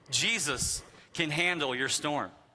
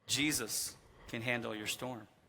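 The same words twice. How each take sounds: First: It is said with more force and emphasis. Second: It is said in a calmer, plain way.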